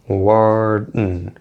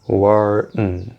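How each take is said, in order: Both takes have the same delivery.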